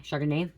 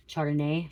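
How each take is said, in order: First: Chardonnay said with a soft sh, shar-da-nay, rising at the end. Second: Chardonnay said with a hard ch, tʃar-da-nay. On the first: Psychic correcting the name for viewers, soft sh in Chardonnay. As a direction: start Chardonnay with a soft sh like shoe. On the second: Psychic trying a name on viewers, hard ch in Chardonnay. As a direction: start Chardonnay with a hard ch like church. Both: Shown as a demonstration.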